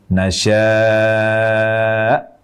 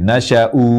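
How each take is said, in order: First: Long drawn vowel, ending in a glottal stop. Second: Short first vowel, ending in a long u. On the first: The speaker calls it right. "Huruf terakhirnya hamzah bersukun" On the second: The speaker calls it wrong. "memendekkan harokat fathah pada huruf shin dan waqaf dengan memanjangkan hamzah di akhir kata"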